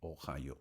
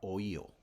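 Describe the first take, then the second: First: It is pronounced with English sounds. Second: It is pronounced with Spanish sounds. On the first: "se pronuncia Ohio" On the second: "en español sería Ohio"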